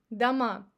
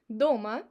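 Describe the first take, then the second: First: Дома stressed on МА; stress on last syllable. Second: Дома stressed on ДО; stress on first syllable. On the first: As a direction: say Дома as da-MA, meaning houses. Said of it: "it's plural". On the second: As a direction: say Дома as DO-ma, at home. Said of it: "at home, it's a location". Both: Shown as a demonstration.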